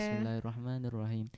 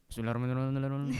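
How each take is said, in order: First: It is recited at a calm, normal pace. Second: It is recited very fast, rushed.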